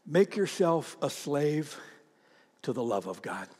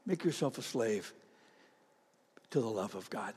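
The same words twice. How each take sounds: First: Soft slow emphasis. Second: Softer repeat. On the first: Sermon quiet emphasis. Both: Acted.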